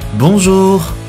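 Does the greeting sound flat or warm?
warm. The greeting sounds warm and smiling. The conversation starts on a positive footing. The speaker calls it right.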